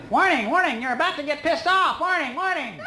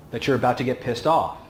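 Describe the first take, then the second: First: Very high robotic warning voice, laughing at the end; mock alarm voice. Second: Said in the usual way. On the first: Explaining anger to the audience as a mock alarm, high robotic alarm voice. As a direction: sound off like a silly alarm siren in your head. Mocks brain's internal alarm.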